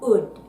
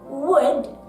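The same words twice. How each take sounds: First: The word begins without any W sound. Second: The word begins with a clear W sound. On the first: "Japanese speakers tend to omit the W sound" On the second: "instead of saying would"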